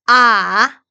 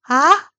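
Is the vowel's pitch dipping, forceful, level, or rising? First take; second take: dipping; rising. First: The pitch dips down, then goes up. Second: The pitch rises upward. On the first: "삼성은 아래 위로" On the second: "이성은 올라가게"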